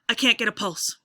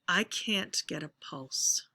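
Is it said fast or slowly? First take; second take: fast; slowly. First: It is said fast and urgently. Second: It is said slowly and deliberately.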